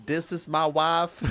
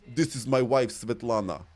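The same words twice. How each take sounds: First: High, slow Western twang; cowboy Western accent. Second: Put-on Polish accent; Slavic accent. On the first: Acted. Streamer playing a cowboy introducing a wife, Western accent. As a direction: drawl it in a put-on Western accent. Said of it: "Cowboy would be more Western". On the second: Shown as a demonstration. Streamer demonstrating a Polish accent for viewers, Slavic accent. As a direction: introduce the wife in a Slavic accent. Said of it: "my voice instantly goes deeper".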